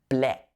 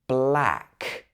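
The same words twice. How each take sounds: First: The vowel sounds like the e in bet. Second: The vowel sounds like the a in bat. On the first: The speaker calls it wrong. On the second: The speaker calls it right.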